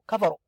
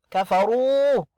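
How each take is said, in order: First: The ra vowel is short. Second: The ra vowel is long. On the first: The speaker calls it wrong. "The wrong way is to say kafaru" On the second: The speaker calls it right. "the ra is long sound here. Make it long"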